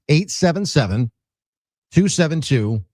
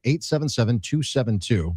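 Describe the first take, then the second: First: The number is said slowly. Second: The number is said at normal speed.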